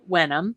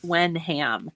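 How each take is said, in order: First: The last syllable sounds like um. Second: The last syllable sounds like ham. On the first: "but it's pronounced uh" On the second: "spelled W E N H A M"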